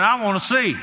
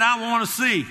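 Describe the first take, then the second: First: I wanna see, punched high and loud; a blind beggar declares it emphatically to Jesus; very emphatic. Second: I wanna see, hit high and hard; emphatic. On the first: Blind man tells Jesus emphatically, high and loud. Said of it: "Very emphatically". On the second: Blind man answers Jesus, emphatic and high. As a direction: cry it out with full conviction. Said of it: "And he said". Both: Acted.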